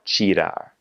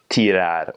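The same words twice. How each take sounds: First: "tirar" with ti said as "chee"; Brazilian ch sound. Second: "tirar" with a hard t, tee-RAHR; continental Portuguese pronunciation. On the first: Teacher repeating after spelling it, Brazilian pronunciation. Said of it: "if there's a T I". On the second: Teacher contrasting Portugal with Brazil, continental pronunciation. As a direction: say "tirar" slowly with no ch sound. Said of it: "pronounce those T Is and T Es just like". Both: Shown as a demonstration.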